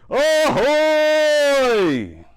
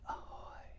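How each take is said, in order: First: It is said very loudly. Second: It is said very quietly.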